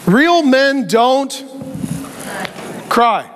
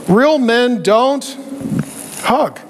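First: Drawn out like a gruff dad's motto; mock the macho rule slowly; a hint of a stern father; slow macho saying. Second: Drawn-out gruff motto; a hint of a stern father; slow macho saying. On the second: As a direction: spell out the rule slowly in mockery.

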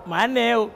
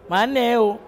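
The two takes are said the same way.

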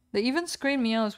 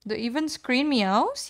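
First: Said in the usual way. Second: Surprised question. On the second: Real, not acted. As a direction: ask it in amazed disbelief. Repeats chat question in surprise.

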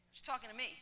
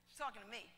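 First: Said in the usual way. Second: Softer, letting it sink in; softer repeat. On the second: Shown as a demonstration. Preacher repeats the irony to the congregation, softer. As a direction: hush it the second time.

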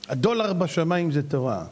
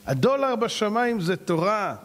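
First: Said in the usual way. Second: "הדולר בשמיים זה תורה" slowly, each word weighted; emphatic repeat. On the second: Real, not acted. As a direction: drive home "הדולר בשמיים זה תורה", drawn out. ("הדולר בשמיים זה תורה" לאט ובהדגשה)

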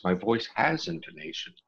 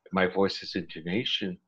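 First: Lilting "my voice has intonation", pitch lifted high; relaxed intonation. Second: Level, little-varied pitch on "My voice has intonation"; forced intonation. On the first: Showing how a relaxed voice sounds, melodic intonation. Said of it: "if I relax". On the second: Explaining forced voice to the interviewer, level intonation. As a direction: keep "intonation" even, without melodic lift. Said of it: "Voice has the same issue". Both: Shown as a demonstration.

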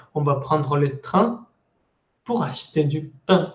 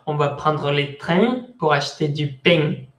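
First: "train" and "pain" with pure nasal vowels; standard French. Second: Joking Marseille accent, ng on train and pain; southern French with sounded nasal endings. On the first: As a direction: end "train" and "pain" without any ng. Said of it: "pero en realidad es". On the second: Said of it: "en el sur va". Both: Shown as a demonstration.

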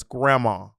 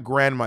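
First: Grandma without any N, "gram-ma"; family pronunciation. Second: Grandma with the N sounded, "gran-ma"; standard pronunciation. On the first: Correcting a friend on the family name, Grandma said as "gram-ma". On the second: Correcting a friend on the family name, Grandma said with an N. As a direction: say Grandma as "GRAN-mah", N clearly heard. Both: Shown as a demonstration. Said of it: "it's not Grandma, it's Grandma".

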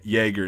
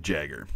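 First: Jaeger as YAY-grr, starting with Y. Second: Jagger as JAG-er, with English J; hard J at the start of Jagger. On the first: Telling viewers how to be understood, Jaeger with a Y. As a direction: open Jaeger with a Y, keep the American R. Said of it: "if you pronounce it like". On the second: Teacher contrasting the wrong version, Jagger with English J. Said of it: "instead of Jagger". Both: Shown as a demonstration.

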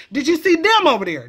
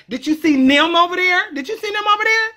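First: "them" said as "dem", with a hard d; Did you see dem over there, d not th; saying dem for them. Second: "nim" said in place of "them", higher; Did you see nim, with nim for them; saying nim for them. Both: Shown as a demonstration.

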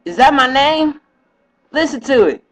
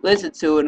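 First: A higher, lightly voiced woman, puzzled; mock her surprised voice, pitched up; imitating her. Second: Said in the usual way. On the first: Quoting his girl who hears her name on the video, puzzled. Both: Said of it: "and she was like".

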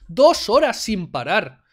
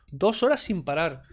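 First: DOS HORAS SIN PARAR loud and drawn out; indignant emphasis. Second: Said in the usual way. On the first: Real, not acted. Streamer protesting the two-hour talk, loud indignant emphasis. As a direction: punch "Dos horas sin parar", stretching each word slowly.

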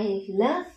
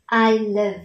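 First: "love" with a Vietnamese ơ vowel, lerv; wrong pronunciation. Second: "love" with a short open a-like vowel; correct pronunciation. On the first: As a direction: say "I love" with a closer uh in "love". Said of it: "Chúng ta không đọc là". (đọc sai "love" thành "lơ-v") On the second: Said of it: "Chúng ta không đọc là I love". (đọc "love" với âm "ă" ngắn) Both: Shown as a demonstration.

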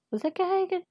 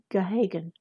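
First: High, quiet, puzzled double-check of the name; a soft, high-pitched query over Gahagan; puzzled question. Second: Said in the usual way. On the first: Real, not acted. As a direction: ask it to yourself in disbelief.

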